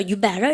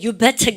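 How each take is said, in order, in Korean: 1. 미국식 억양이라 t가 부드러워요. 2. 영국식 억양이라 t가 또렷하게 끊어져요. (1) "미국 발음이 부드럽고 이쁘죠... You better 이렇게 하니까 쉽죠" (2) "영국 애들은 당연히 you better go 해서 특 발음도 할 겁니다"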